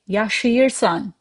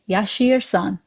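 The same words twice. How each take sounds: First: Every written sound is pronounced in full. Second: The sounds are smoothed and run together. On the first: "I wrote yaşıyorsan, but when you say yaşıyorsan" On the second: "for smoother pronunciation, we say yaşıyorsan"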